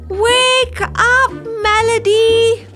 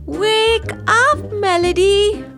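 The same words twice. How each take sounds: First: It is said loudly. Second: It is said at normal volume.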